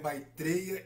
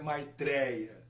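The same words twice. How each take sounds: First: The e vowel is said closed. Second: The e vowel is said open. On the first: The speaker calls it right. "no sânscrito, não há vogais abertas" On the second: The speaker calls it wrong. "não é Maitreya"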